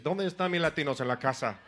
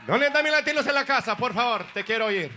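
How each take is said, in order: First: Said in the usual way. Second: Higher, louder, fast crowd shout; hype call-out. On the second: Shown as a demonstration. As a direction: pump up the crowd like an MC.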